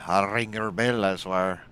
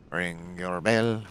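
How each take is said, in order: First: Loud, high mock threat. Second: Drawn-out slow threat; slow menace. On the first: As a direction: yell out the threat. Threatening a game enemy. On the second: Acted. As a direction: stretch each word out. Repeating the threat slowly.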